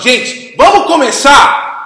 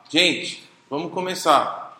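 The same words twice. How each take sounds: First: It is said in an angry tone. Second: It is said in a calm, neutral tone.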